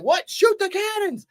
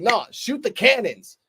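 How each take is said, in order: First: High-pitched incredulous echo; mock disbelief. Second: Drawn-out dismissive command, pitch raised; mock a ruthless commander giving the order; slow, offhand retold order. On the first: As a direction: repeat the order as if you can't believe it. Repeats the order in disbelief.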